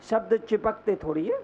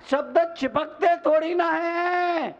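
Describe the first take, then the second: First: Said in the usual way. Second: High, declaimed reassurance to the crowd; emphatic repeat. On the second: Real, not acted. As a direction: proclaim it high with a long ending. (ऊँचे सुर में ज़ोर देकर)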